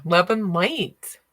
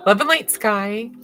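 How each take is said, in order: First: Slow, stretched love and light; drawn-out blessing. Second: "Love and light" a bit louder, rising on "light"; bright blessing. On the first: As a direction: let "Love and light" linger, each word drawn long. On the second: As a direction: lift "light" upward as a greeting to Sky. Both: Shown as a demonstration.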